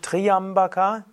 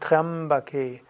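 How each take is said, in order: First: The y is said as a separate vowel. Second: The y is said as a consonant glide. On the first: The speaker calls it wrong. "Es ist nicht Triambaka" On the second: The speaker calls it right. "sondern Triambake. Das Y hier ist ein Konsonant"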